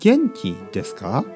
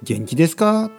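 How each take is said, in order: First: It is said with standard Tokyo intonation. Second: It is said with a nonstandard intonation. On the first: The speaker calls it right. "僕の話し方は東京のスタンダードのね、日本語のイントネーションです" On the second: The speaker calls it wrong. "元気ですかじゃないですね"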